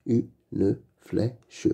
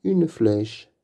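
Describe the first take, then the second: First: Une flèche split into u, ne, flè, che; syllable by syllable. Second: Said in the usual way. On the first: Shown as a demonstration. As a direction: sound out "Une flèche" with gaps between syllables. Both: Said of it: "Lis les mots".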